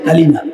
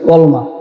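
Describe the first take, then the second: First: The word is said in full, as kalima. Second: The word is said short, as kolma. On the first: The speaker calls it right. "হুজুরে আমাদেরকে শিখিয়েছেন কালিমা" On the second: The speaker calls it wrong. "একজন কইতেছ কলমা"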